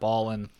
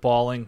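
First: The ending is said without the g sound. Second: The ending is said with a full g sound. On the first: It sounds like street slang. The speaker calls it wrong. "not balling" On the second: It avoids sounding like street slang. The speaker calls it right. "I put balling"

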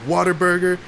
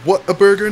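First: The first part sounds like the word 'water'. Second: The first part sounds like the word 'what'. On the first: The speaker calls it wrong. "not Whataburger" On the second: The speaker calls it right. "It's Whataburger"

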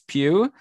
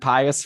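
First: The name is said with one syllable. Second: The name is said with two syllables. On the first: The speaker calls it right. "but it's Pew" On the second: The speaker calls it wrong. "I was saying Pius forever, which is more fun"

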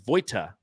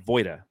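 First: The middle consonant is a clear T sound. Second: The middle consonant sounds like a D. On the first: The speaker calls it wrong. "if you read my last name, it says Voita" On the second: The speaker calls it right. "you actually say it's Voita. It's like Utah. It sounds like it's a D"

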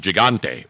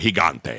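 First: The word has English-style pronunciation. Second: The word has Spanish-style pronunciation.

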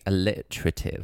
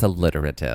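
First: It is said in a British accent. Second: It is said in an American accent.

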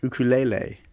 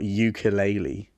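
First: The word is said with a Hawaiian pronunciation. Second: The word is said with an English pronunciation. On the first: The speaker calls it right. "that's how they say it in Hawaii" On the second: The speaker calls it wrong. "Not ukulele"

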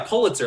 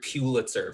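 First: The first syllable sounds like the word 'pull'. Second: The first syllable does not sound like 'pull'. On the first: The speaker calls it right. "like you're pulling it toward yourself" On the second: The speaker calls it wrong. "You have no idea how much I hear Pulitzer from people"

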